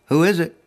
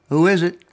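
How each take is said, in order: The two takes are said the same way.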